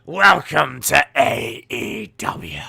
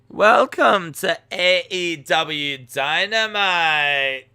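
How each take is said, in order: First: Loud, slow mock pirate announcer; pirate voice, stretched out; pirate talk. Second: Loud, slow mock Scottish announcer; hammed-up Scottish accent, higher and stretched out. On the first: Shown as a demonstration. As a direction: bellow it in a hammed-up pirate accent. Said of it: "same as talking like a pirate". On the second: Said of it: "can you try a Scottish accent".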